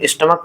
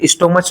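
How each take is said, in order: First: The word ends with a 'k' sound. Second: The word ends with a 'ch' sound. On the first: The speaker calls it right. "इसे हम स्टमक पढ़ते हैं" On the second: The speaker calls it wrong. "यहाँ इसे स्टोमच ना पढ़ के"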